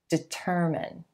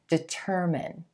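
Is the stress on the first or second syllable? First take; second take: second; second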